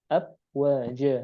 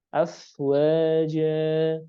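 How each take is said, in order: First: The sound is a stopped b without airflow. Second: The f is breathy with air flowing through. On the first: The speaker calls it wrong. "Ini ada ini malah gimana? Malah abwaja" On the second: The speaker calls it right. "harusnya fa-nya mengalir nafasnya"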